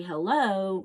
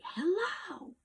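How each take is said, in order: First: Said in the usual way. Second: "Hello" pitched much higher with more force; forceful call. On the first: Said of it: "just like I said the first time". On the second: Shown as a demonstration. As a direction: put real energy behind "Hello". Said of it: "the energy I put behind the second hello".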